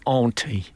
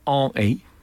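First: The T sound is pronounced. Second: The T sound is dropped completely. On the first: A modern Cockney speaker would say it this way. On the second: An older Cockney speaker would say it this way.

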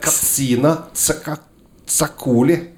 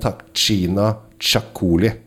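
First: The 'tx' is not pronounced as a 'ch' sound. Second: The 'tx' is pronounced as a 'ch' sound.

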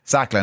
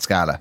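First: The name is said as Sacla. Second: The name is said as Scala. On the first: The speaker calls it right. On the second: The speaker calls it wrong. "not Scala"

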